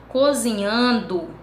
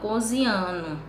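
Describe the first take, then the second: First: The ending is said in full as -ndo. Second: The ending is reduced to -no. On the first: "Ao invés de falar" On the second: "ele fala"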